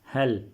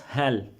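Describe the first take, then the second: First: The vowel is short, like in 'hell'. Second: The same.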